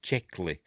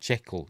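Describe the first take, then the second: First: The word ends with an 'ee' sound. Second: The word ends without an 'ee' sound. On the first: The speaker calls it wrong. "he pronounces it Czechly" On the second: The speaker calls it right. "No, he pronounces it Checkle. That's it. Don't pronounce the, the Y at the end"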